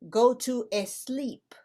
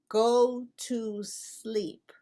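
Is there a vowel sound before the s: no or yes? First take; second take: yes; no. First: An extra e sound comes before the s. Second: The word sleep starts directly with s. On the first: The speaker calls it wrong. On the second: The speaker calls it right.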